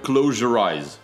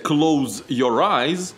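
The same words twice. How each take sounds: First: The words run together as one word. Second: The words are kept apart as separate words. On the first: The speaker calls it right. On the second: The speaker calls it wrong.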